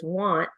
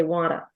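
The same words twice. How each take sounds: First: Said in the usual way. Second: Want said as wanta, an added uh after the t; schwa insertion. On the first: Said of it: "if the word is want". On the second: Shown as a demonstration. Coach imitating a learner who adds a schwa to want. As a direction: tack an uh onto want: wanta. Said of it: "they might say wanta".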